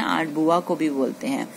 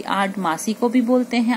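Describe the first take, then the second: First: बुआ stressed with a falling tune; बुआ given the weight, falling. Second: भी lifted and stressed; भी said higher with weight. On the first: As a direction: land on बुआ and let it fall. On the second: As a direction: lean on भी to add the meaning. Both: Shown as a demonstration.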